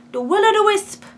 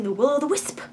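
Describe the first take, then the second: First: High, loud attempted Scottish accent. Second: Said in the usual way. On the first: Shown as a demonstration. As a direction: try the Scottish accent on Will-O-the-Wisp. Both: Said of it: "I can't do a Scottish accent".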